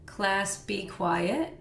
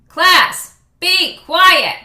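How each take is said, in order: First: The voice sounds weak and unconvincing. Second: The voice sounds firm and commanding. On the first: The class is unlikely to obey. The speaker calls it wrong. "we do the ineffective teacher" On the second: The class is likely to obey. The speaker calls it right. "we contrast that with the feeling"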